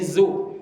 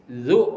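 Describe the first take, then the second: First: It begins with a buzzing z sound. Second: It begins with a soft th sound, as in this. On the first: The speaker calls it wrong. "huruf zai" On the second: The speaker calls it right. "tertukar huruf zal"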